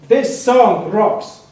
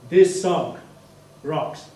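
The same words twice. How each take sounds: First: It is shouted loudly. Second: It is said loud but calm and confident.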